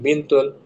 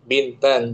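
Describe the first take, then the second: First: The word ends with an 'un' sound. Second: The word ends with an 'an' sound. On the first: The speaker calls it wrong. "jangan Bintun" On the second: The speaker calls it right. "Bintan, jangan Bintun"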